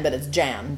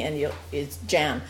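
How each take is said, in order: First: "Jan" again with soft zh-like J and open a; Jan said as Yan. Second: "Jan" with a soft zh-like J, not Jen; Jan said as Yan. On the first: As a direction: stress the "Jan" correction. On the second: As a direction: say "Jan" as Zhahn, open a. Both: Shown as a demonstration. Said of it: "she's saying Jen, but it's Jan".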